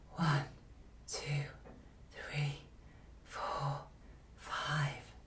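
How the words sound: The voice is quiet with lots of air. The speaker calls it wrong. "also a quiet voice, but one that is too breathy, has too much air"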